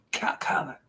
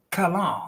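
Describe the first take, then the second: First: Whispered "Callan", testing the name; careful whispered try. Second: Said in the usual way. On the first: Shown as a demonstration. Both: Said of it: "I said it right".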